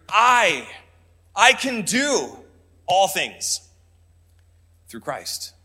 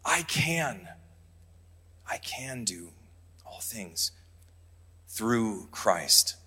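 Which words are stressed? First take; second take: all things; through Christ. First: The stress is on I and all things. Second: The stress is on I and through Christ.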